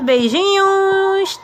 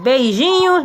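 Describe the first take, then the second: First: Beijinhos stretched slowly and pitched higher; a slow, higher fond farewell; drawn-out goodbye. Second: Said in the usual way. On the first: Real, not acted. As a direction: sing out beijinhos long and high. Goodbye to the class.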